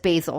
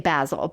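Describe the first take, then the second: First: The word is said with American pronunciation. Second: The word is said with British pronunciation. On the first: This is how people in the States say it. "everybody I know in the States says basil" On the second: This is how people in the UK and Europe say it. "my friends from the U K and my friends who speak English that are in Europe say basil"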